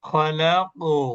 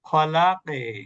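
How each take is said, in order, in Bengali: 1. q-এর পরের প্রতিধ্বনি উপরের দিকে ঝোঁকে, u-এর মতো। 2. q-এর পরের প্রতিধ্বনি নিচের দিকে ঝোঁকে, e-এর মতো। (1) "প্রতিধ্বনিটা উপরের দিকে যাচ্ছে" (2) "যদি এটা নিচের দিকে দিতাম"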